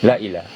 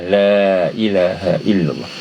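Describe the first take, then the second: First: The vowel after la is held very briefly. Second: The vowel after la is held twice as long. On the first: "jangan baca la ilah, la ilah, la ilah satu satu harakat" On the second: "Ini dua harakat"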